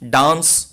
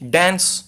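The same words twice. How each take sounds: First: It is said with a British accent. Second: It is said with an American accent. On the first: "British English" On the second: "American English"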